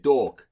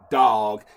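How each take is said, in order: First: Dog is said with a New York accent. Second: Dog is said with a general accent. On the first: "he said it with the New York" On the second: "He didn't say dog"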